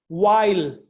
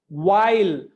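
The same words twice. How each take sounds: Both takes have the same delivery.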